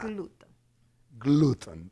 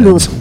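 First: It is said in a put-on Italian accent. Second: It is said in the speaker's ordinary accent.

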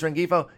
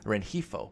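First: The g is sounded as a hard g. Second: The g is sounded as a breathy h. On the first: The speaker calls it wrong. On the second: The speaker calls it right.

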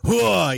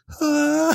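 First: It is said in a deep, manly voice. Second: It is said in a higher, female voice.

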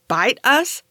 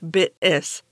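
First: The first vowel rhymes with bite, ending in us. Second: The first vowel rhymes with bit, ending in is. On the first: The speaker calls it wrong. "I thought it was pronounced like bite us" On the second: The speaker calls it right. "it's not pronounced bit us, actually, it's bit is"

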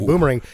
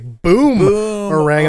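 First: The word is said in an ordinary way. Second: The 'boom' part is loud and drawn out. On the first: It is an ordinary throwing toy. "this isn't really a boomerang" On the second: It is a toy that explodes. "a way to accentuate boom"

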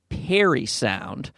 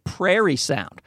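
First: The name begins with a plain 'per' sound. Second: The name begins with a 'prair' sound. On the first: The speaker calls it right. "they pronounce it Perry sound" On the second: The speaker calls it wrong. "sometimes I just randomly say prairie sound"

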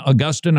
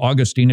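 First: The name is said the usual non-Florida way. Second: The name is said the way Floridians say it.

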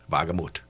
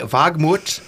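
First: The name is said with an English accent. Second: The name is said with a German accent. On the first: The speaker calls it right. "it's properly pronounced Walgamuth. Much better" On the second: The speaker calls it wrong. "I really like saying it with a German accent"

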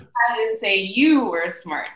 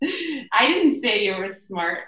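First: The stress is on the word you. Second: The stress is on the word I.

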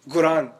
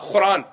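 First: The word begins with a hard g sound. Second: The word begins with a raspy kh sound. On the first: This is how some Arabs say it. "instead of Qaf, they'll say Ga" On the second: This is how some people in India say it. "instead of Qaf, they say Kha"

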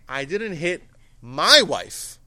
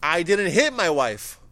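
First: The word wife carries the main stress. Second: The word hit carries the main stress. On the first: Someone other than the wife was hit. "So who do you hit?" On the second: Something else was done to the wife. "I might have done something else"

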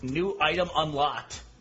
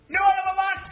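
First: It is said at normal, quieter volume. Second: It is said very loudly.

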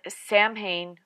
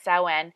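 First: The name is pronounced the way it is spelled. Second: The name is pronounced in its traditional form. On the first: The speaker calls it wrong. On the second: The speaker calls it right.

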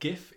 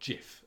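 First: The word starts with a hard G sound. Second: The word starts with a soft G sound. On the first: The speaker calls it right. "it is GIF... The first word being graphical has a hard G" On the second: The speaker calls it wrong. "it is not GIF"

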